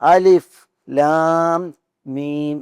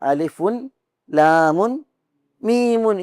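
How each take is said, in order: First: Each letter name ends on its bare final consonant. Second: Each letter name ends with an added -un sound. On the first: The speaker calls it right. "പിന്നെയോ അലിഫ് ലാം മീം എന്നാണ്" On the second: The speaker calls it wrong. "ഇങ്ങനെയാണ് ഓതേണ്ടത്. പക്ഷെ അങ്ങനെയല്ല ഓതേണ്ടത്"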